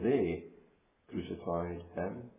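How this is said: The stress falls on the word they. Mere sinful, puny men did it. "First of all, to think of they"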